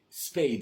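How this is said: The vowel glides as a clear diphthong. This is the British pronunciation. "Spade au Royaume-Uni... on dit spade. Il y a une légère diphtongue"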